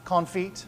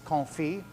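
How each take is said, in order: First: The word ends with a 'feet' sound. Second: The word ends with a 'fee' sound. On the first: The speaker calls it wrong. "not confit or with feet" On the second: The speaker calls it right. "it's confit"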